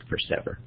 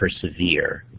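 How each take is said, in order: First: The ending rhymes with 'ever'. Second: The ending does not rhyme with 'ever'. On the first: This is how the word was said in earlier times. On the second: This is how the word is said today.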